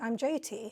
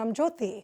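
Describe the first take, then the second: First: The name has an anglicized English pronunciation. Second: The name has its Indian pronunciation. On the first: The listener is British and not Indian. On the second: The listener shares the speaker's Indian background. "when I meet someone Indian"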